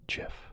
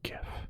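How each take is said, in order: First: The word begins with a J sound. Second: The word begins with a hard G sound. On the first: The speaker calls it wrong. "like the peanut butter" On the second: The speaker calls it right. "It's like gift without the T"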